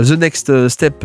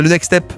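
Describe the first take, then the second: First: Attempted English accent on "the next step"; French speaker putting on an English accent. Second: Said in the usual way. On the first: Shown as a demonstration. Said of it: "avec mon bel accent, euh, anglais".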